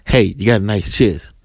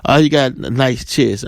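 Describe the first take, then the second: First: Retold come-on in the usual pitch; lightly voiced man. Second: Casual retold compliment, slightly raised; lightly voiced woman. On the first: Man comes up to a woman, lightly imitated compliment. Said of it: "if a man comes and says". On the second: Woman compliments a man, lightly imitated casual praise. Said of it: "women are telling men all the time".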